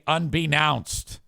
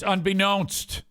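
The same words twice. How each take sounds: First: The middle vowel sounds like in 'now'. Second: The middle vowel sounds like in 'known'. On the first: This is how someone else says it. The speaker calls it wrong. "he truly does say unbeknownst" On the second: This is the standard pronunciation. The speaker calls it right. "that's how you say known"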